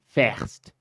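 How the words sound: It is said in a Liverpool accent.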